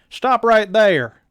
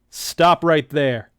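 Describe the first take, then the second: First: It is said in the put-on character voice. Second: It is said without the right character voice.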